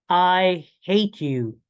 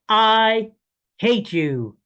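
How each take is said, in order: First: It is said with mild force. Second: It is said with the most force.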